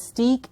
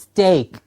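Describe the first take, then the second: First: The vowel is a long 'ee' sound. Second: The vowel is a long 'ay' sound. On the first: The speaker calls it wrong. "It's not steak" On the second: The speaker calls it right. "the pronunciation is steak"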